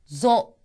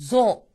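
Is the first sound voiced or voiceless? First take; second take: voiced; voiced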